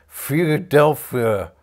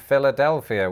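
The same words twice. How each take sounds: First: The L sounds are swallowed far back. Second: The L sounds are pronounced clearly.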